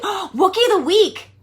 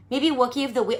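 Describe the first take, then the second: First: Gasping, thrilled, drawn out; delighted discovery of the slogan; excited gasp. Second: Said in the usual way. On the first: Shown as a demonstration.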